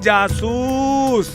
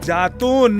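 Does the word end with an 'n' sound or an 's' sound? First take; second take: s; n. First: The word ends with an s sound. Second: The word ends with an n sound. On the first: The speaker calls it right. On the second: The speaker calls it wrong. "जातून नहीं"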